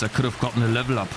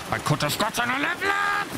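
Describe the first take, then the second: First: Said in the usual way. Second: High, strained frustrated cry; anguished high-pitched complaint; 1 frustrated wail. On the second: Real, not acted. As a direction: wail it at the lost level. Plain then shouted repeat.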